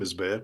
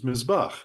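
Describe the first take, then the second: First: The last syllable has an 'e-a' vowel sequence. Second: The last syllable has a single 'a' vowel. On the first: "the first one's obviously Mizbeach" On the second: "the second one is Mizbach"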